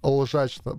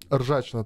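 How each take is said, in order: First: The word starts with an L sound. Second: The word starts with a rolled R sound. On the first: "вместо буквы R говорить L" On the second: "Ржачно, то есть лжачно"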